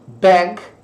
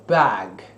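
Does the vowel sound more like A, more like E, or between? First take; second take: E-like; A-like. First: The vowel leans toward e. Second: The vowel leans toward a. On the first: An American pronunciation. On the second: A British pronunciation. "Britânico"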